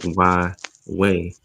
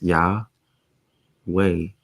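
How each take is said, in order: First: The first syllable is a bare 'y' sound. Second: The first syllable has a full 'ah' vowel. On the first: "You would just have to say like Y way" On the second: "it's Yah way"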